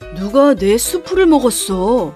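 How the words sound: It is spoken in a low, deep voice. "낮은 목소리로 말했어요"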